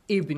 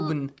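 First: The word begins with an i vowel. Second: The word begins with a u vowel. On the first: The speaker calls it right. "you say with kasra" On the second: The speaker calls it wrong. "You don't say"

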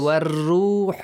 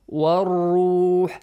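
First: The R is pronounced light and thin. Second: The R is pronounced heavy and full. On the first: The speaker calls it wrong. "Do not say war-ruh, no" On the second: The speaker calls it right. "When it has a heavy sound"

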